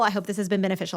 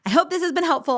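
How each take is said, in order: First: Said in the usual way. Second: Bright and upbeat. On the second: Real, not acted. Warm sign-off, repeated phrase.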